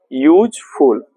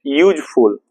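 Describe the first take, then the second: First: यूजफुल said as यूज, short gap, फुल; teacher separating यूज from फुल in यूजफुल; split into two parts. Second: Said in the usual way. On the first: Shown as a demonstration. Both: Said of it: "तो ये दो word से बना है".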